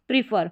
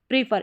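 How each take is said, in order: First: The first vowel is a long 'ee' sound. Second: The first vowel is a long 'ee' sound.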